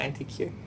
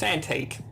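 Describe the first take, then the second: First: The word ends with the letter name Q. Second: The word ends with a 'teek' sound. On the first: It is a misreading of the spelled letters. The speaker calls it wrong. "not anti-Q" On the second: It names an old, valuable object. The speaker calls it right. "It's antique"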